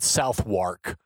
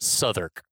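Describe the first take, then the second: First: Every letter of the spelling is sounded out. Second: Several letters are dropped, making it shorter. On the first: "which is spelled Southwark" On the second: "but pronounced Southwark"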